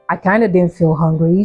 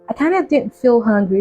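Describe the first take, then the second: First: It is said in a natural, deep voice. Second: It is said in a put-on sweet voice.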